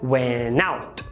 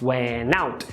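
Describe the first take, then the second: First: The N runs straight into the next word. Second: The N runs straight into the next word.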